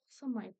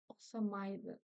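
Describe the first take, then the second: First: The final syllable is reduced and clipped. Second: The final syllable is fully pronounced. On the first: This is the form heard in everyday speech. "Осамайт, скорее всего, вы услышите" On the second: This is the careful form news readers use. "в обычной речи вы, ну, редко услышите осамайды"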